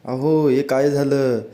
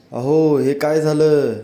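First: Said in the usual way. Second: Slow, lightly raised alarmed cry of अहो; wife calls her husband in alarm over spoiled masala, mild slow cry out; mild mock cry out. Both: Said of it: "ती ओरडू लागते".

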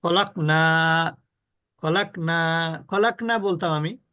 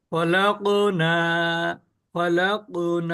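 First: ফলাক with a dead stopped ক; slow, cut the ক of ফলাক flat; ফলাক clipped with no echo; without qalqala. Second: ফলাক very slow with the ক bouncing out; ফলাক with a ringing rebound on ক; with qalqala. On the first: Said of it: "কিন্তু আমি যদি কলকলা না করি". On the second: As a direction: stretch ফলাক and let ক spring up. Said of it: "কিন্তু কলকলা করলে কি বলবো?". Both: Shown as a demonstration.

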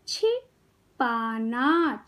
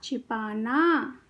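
First: छिपाना very slowly, pause after छि, long पाना; syllable by syllable. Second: Said in the usual way. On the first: Shown as a demonstration. Teacher teaching kids to read, syllables apart. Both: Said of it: "शब्द पढ़ना सिखाऊंगी".

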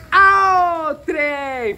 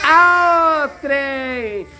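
First: Drawled Minas Gerais "Ao trem!", the vowels stretched out; a playful Minas Gerais greeting, "Ao trem!" sung out long; mineiro accent. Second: Drawled Minas Gerais "Ao trem!", the vowels stretched out; a dad demonstrating the Minas Gerais way of saying "Ao trem!"; mineiro accent. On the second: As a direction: answer the question with a Minas Gerais greeting. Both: Shown as a demonstration. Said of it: "Como é que mineiro fala?".

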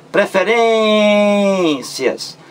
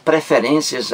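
First: "Preferências" high, with a very long "rên"; stressed syllable drawn out. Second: Said in the usual way. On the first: Shown as a demonstration. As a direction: really hang on the "rên" in "Preferências". ("Preferências" em tom alto, com "rên" longuíssimo) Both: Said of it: "A sílaba mais forte é".

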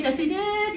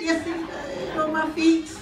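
First: Said in the usual way. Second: Slow, "feet" lang gedehnt; stress on feet. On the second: Shown as a demonstration. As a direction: hit "feet" hard and slow. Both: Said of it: "I know y'all say".

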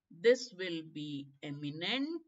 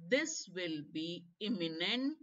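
First: "eminent" begun with a short e as in "egg"; slow, careful "eminent" with an "eh" start. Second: "imminent" begun with a short i as in "in"; careful "imminent" with an "ih" start. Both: Shown as a demonstration. Teacher contrasts two similar-looking words.

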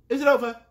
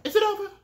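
First: Said in the usual way. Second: "Is it over?" asked higher, rising in hope; "Is it over?" lifted high; high question. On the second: Real, not acted. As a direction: pitch "Is it over?" up, eager. Asks repeatedly whether video ended.

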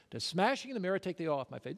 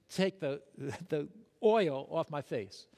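First: Said in the usual way. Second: Laughing. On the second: Real, not acted. Laughs at his own story.

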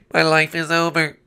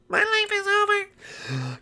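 First: Said in the usual way. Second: Very high, slow falsetto lament; drawn-out, hammed-up misery; squeaky despair. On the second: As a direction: wail it softly in a tiny cartoon voice.

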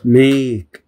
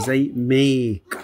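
First: Said in the usual way. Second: Slow demo. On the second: Shown as a demonstration. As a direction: make said very slowly with a long vowel. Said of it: "بيجي بعد ال A". (نطق make ببطء)

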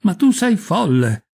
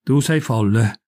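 First: Higher, drawn-out "Ma tu sei folle!"; stupefied. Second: Low, slow "Tu sei folle"; irritated dismissal. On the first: Stunned mother with nothing else to say, stupefied. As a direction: exclaim it slowly in disbelief, pitch raised. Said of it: "stupefatta, ripeté ancora una volta". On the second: Irritated mother answering her daughter's plan, low dismissal. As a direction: say it slowly and contained, irritated. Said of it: "irritati. Rispose". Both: A narrator's reading.

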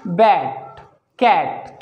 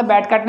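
First: बैट कैट slow, each with a long open vowel; correct pronunciation. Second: बैट कैट quick, with short, less open vowels; wrong pronunciation. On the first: Teacher modelling bat, cat for learners, slow correct pronunciation. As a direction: open wide on बैट कैट, one word at a time. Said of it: "हम इसे बोलेंगे बैट कैट". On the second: Teacher showing learners how not to say bat, cat, wrong pronunciation. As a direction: rush through बैट कैट without opening the vowel. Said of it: "बैट कैट नहीं बोलेंगे". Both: Shown as a demonstration.

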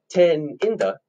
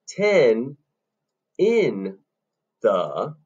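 First: TEN held, IN THE quick together; quicker IN THE. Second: TEN, IN, THE slowly, a pause after each; separated syllables. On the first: Teacher clapping the rhythm, long TEN and quick IN THE. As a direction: hold TEN, then hurry IN THE. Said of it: "the in the is faster". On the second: Teacher counting three syllables, slow and separated. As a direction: spell out TEN IN THE one beat at a time. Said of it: "leaves us three syllables on this beat". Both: Shown as a demonstration.

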